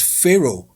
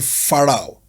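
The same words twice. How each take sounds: First: The first syllable does not sound like 'far'. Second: The first syllable sounds like 'far'. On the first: The speaker calls it right. "it's not far, it's" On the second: The speaker calls it wrong. "Yoruba person would easily say"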